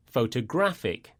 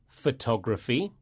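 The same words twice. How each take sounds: First: Photographic with the stress on GRAPH, falling; co-host contrasting noun and adjective. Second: Photography with the stress on TOG, rising; co-host contrasting noun and adjective. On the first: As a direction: hit the GRAPH syllable of photographic. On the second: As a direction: lean on the TOG syllable of photography. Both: Shown as a demonstration. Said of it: "the stress falls on the penultimate syllable".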